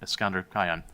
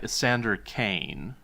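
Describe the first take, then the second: First: The surname is said like 'Kaon', as spelled. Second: The surname is said like 'Kane', one syllable. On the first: This follows the spelling of the name. "we're gonna go with Kaon" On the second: This is how the name is officially pronounced. "it's pronounced this other way"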